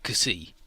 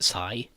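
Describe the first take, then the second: First: The name is said as two syllables, ka-see. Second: The name is said as one syllable, sigh. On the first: The speaker calls it right. "that's how they pronounce it" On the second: The speaker calls it wrong. "the Gundam wiki says you should pronounce it Sai"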